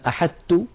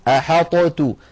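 First: The ṭ fully merges into a doubled plain t. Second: The ṭ is released with a bounce before t. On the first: "هل تدغم هذه الطاء في التاء؟ فنقول مثلا أحطت، هذا لم تفعله العرب" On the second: "ولو أظهرنا الطاء لابد من قلقلتها ... تجدونها ثقيلة"

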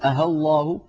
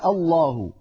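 First: The second hamza is replaced by a plain h sound. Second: The second hamza is a full, clear glottal stop. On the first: "يقلبونها هاء خالصة" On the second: "أن يبقيها صريحة"

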